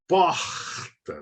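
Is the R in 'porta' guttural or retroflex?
guttural. The R is made at the back of the throat. This is the Rio de Janeiro accent. "o som é bem diferente do R"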